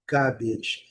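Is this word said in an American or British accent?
British. A long first vowel with no R sound. "a transcrição fonética do inglês britânico é ga, garbage, garbage, um A prolongado sem o R"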